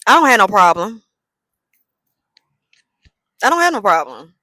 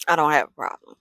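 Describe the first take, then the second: First: Louder defiant repeat; defiant louder take; mock insistence. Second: Said in the usual way. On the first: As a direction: insist you have no problem, louder. Repeating the phrase, trying tones.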